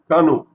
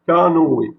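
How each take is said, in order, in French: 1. Le mot finit sur le o, sans e final. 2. Le mot finit par un son e séparé. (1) "s'il n'y avait pas le tréma ici, on aurait lu canot" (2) "le E va devoir se prononcer E. Et ça devient canoë"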